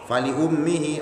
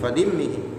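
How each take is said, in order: First: The hamzah carries a u vowel, 'li-ummihi'. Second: The hamzah carries an i vowel, 'limmihi'. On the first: "dibaca dhammah hamzahnya" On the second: "ada qiraah yang membaca falimmihi"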